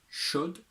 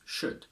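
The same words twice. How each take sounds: First: The word is said with a full strong vowel. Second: The word is said with a reduced weak vowel.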